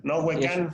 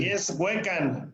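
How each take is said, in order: First: Huecán with the weight on CAN; teacher showing the wrong stress of Huecán; stress on last syllable. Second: Slow Huecan with the weight on HUE; teacher modelling the right stress of Huecan; stress on first syllable. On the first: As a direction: say Huecán landing on the final syllable. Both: Shown as a demonstration.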